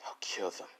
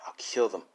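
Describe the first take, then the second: First: Breathy whispered menace, no voice at all; whispered threat. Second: Said in the usual way. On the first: Acted. Boy whispering his murder plan to himself. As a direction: hiss the threat under your breath. Villain mutters threat, then corrects.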